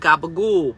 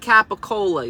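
First: The word is said clipped, as gabagool. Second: The word is said in full, as capicola. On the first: The speaker calls it right. "You say gabagool" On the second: The speaker calls it wrong. "You don't say capicola"

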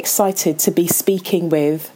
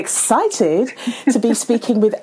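First: The voice sounds flat and unenthusiastic. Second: The voice sounds lively and enthusiastic. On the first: The speaker calls it wrong. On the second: The speaker calls it right.

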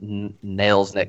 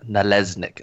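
First: The syllables are said separately and carefully. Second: The syllables are slurred together into one run. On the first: "not like Nalesnik" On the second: "I was going to lean into like the slur of it"

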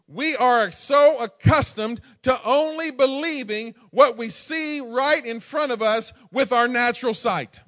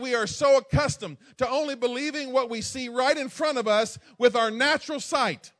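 First: It is said slowly. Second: It is said at normal speed.

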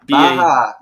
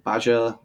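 First: The middle consonant is a soft H-like sound. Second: The middle consonant is a hard J sound. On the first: The speaker calls it right. "The J is silent" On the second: The speaker calls it wrong. "I don't know if I'm pronouncing it correct"

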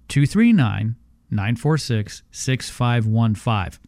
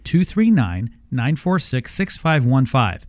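First: The number is said slowly. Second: The number is said fast.

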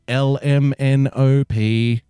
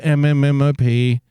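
First: Each letter is said clearly and separately. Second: The letters are blurred together into one sound. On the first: The speaker calls it right. "you go LMNOP because it's hard to say" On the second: The speaker calls it wrong. "when kids go MMMOP and we go no"

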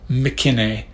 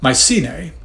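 First: The Y is sounded as a short I. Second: The Y is sounded as a long I. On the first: "you may hear the Y pronounced as a short I" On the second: "I was raised with this pronunciation"

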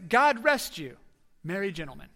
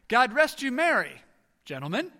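First: There is a pause after "you". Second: There is a pause after "merry".

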